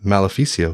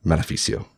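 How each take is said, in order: First: Questioning echo of the name. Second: Name uttered with restrained disgust; spat-out name. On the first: Jonah shuddering at the name, questioning echo. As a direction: repeat it in mild disbelief. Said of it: "he echoed". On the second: Cesare naming the man behind the assassin, spat out. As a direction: spit the name out under control. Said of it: "spat out a name". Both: A narrator's reading.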